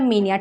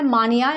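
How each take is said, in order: First: The first vowel sounds like 'ee'. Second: The first vowel sounds like 'ah'. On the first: "जिसको मीनिया word भी pronounce कर लेते हैं" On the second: "मानिया word होता है"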